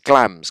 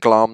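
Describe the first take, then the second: First: The vowel rhymes with lambs. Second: The vowel does not rhyme with lambs. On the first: The speaker calls it right. "Glams rhyme with lambs" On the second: The speaker calls it wrong. "don't start saying glams because it's not"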